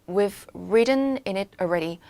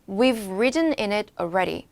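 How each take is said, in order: Both takes have the same delivery.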